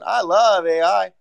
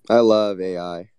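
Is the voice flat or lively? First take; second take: lively; flat. First: The voice is lively with exaggerated pitch movement. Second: The voice is flat with little pitch movement. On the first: It sounds extra sarcastic. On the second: It does not sound sincere.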